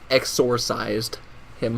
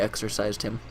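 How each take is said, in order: First: The word is said slowly with extra emphasis. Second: The word is said quickly and casually.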